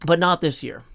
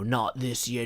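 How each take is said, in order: First: Said in the usual way. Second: Not this year in a put-on New Zealand accent; New Zealand accent, lightly done; mock New Zealand accent. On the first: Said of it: "And that's my best New Zealand accent". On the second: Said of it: "my best New Zealand accent".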